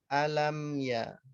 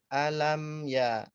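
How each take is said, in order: No difference in how they are said.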